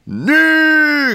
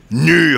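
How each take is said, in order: First: High-pitched drawn cry; cried out. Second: Emphatic, slightly raised repeat; repeated word. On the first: Lecturer cries his word despite the slaps, high cry. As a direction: cry it out far above your usual pitch. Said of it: "cria Kanonov". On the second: Lecturer repeats his word after a slap, emphatic. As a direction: say it once more with emphasis. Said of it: "répéta Kanonov". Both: A narrator's reading.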